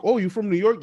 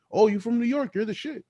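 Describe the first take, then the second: First: High, impressed "Oh, you from New York?"; impressed foreigner. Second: Much higher, gushing "Oh, you from New York?"; starstruck. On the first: Foreigner meeting a New Yorker, high and impressed. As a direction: gush like a starstruck stranger. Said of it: "You could go anywhere and be like". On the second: Foreigner thrilled to meet a New Yorker, high and gushing. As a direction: act dazzled by a New Yorker. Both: Retold or imitated.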